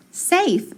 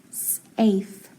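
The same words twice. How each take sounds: First: "safe" joined up, higher pitched; blended whole word. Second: "safe" broken into s, gap, afe; sounded out. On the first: Teacher finishing the decoding for class, "safe" blended and higher. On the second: Teacher decoding a word for class, "safe" in separated sounds. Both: Shown as a demonstration. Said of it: "So I have".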